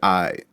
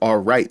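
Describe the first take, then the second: First: It is clipped to a casual 'aight'. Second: It is said in full, standard form.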